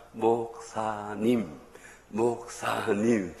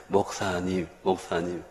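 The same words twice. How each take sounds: First: Each syllable drawn out very slowly; slow teaching demo. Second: Said in the usual way. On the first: Shown as a demonstration. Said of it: "따라합니다". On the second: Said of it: "다시 해".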